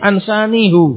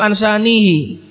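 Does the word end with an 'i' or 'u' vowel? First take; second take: u; i. First: The final vowel is a heavy 'u' sound. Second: The final vowel is a light 'i' sound. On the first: The reading feels heavy, matching a grave matter. "kalau dibaca ansanihu berat" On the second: The reading feels light and natural. "karena ringannya itu ansanihi"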